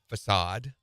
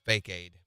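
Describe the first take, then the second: First: It is said as fuh-sahd. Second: It is said as fake-aid.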